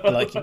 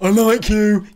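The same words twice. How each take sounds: First: It is said quietly and softly. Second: It is said loudly and intensely.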